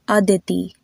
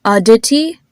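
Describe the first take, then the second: First: Indian-style "Aditi", tongue touching the back of the teeth; Indian pronunciation. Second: "Aditi" in American English, crisp hard d and t; louder American-style "Aditi", rising at the end; American pronunciation. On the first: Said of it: "lighter with the Indian pronunciation". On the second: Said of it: "with an American pronunciation". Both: Shown as a demonstration.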